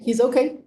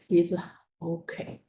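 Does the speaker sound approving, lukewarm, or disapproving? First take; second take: approving; disapproving. First: The tone sounds approving and positive. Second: The tone sounds negative and disapproving. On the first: The student is doing well. "the first okay is quite okay" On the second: The student is actually not doing well. "the third okay is actually not okay"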